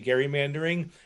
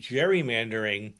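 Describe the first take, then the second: First: The word begins with a hard G sound. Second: The word begins with a soft J-like sound. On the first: This follows the original name Gerry. "but I prefer to say gerrymandering" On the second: This is the common popular usage. "changed it somehow to gerrymandering"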